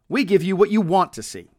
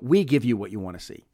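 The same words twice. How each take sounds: First: The stress falls on the word want. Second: The stress falls on the word we. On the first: The focus is on what the audience desires. "The emphasis is almost certainly the word want" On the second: It is us who do this, not someone else. "you could emphasize we if you're contrasting"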